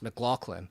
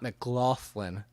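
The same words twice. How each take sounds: First: The name is said with a hard G sound. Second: The name is said without a G sound. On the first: The speaker calls it right. "it's pronounced McLaughlin" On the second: The speaker calls it wrong. "and not McLaughlin"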